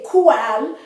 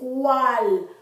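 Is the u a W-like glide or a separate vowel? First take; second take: separate vowel; glide. First: The u is a separate full vowel. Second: The u glides like a W sound. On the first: The speaker calls it wrong. "You don't say cual" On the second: The speaker calls it right. "you say cual"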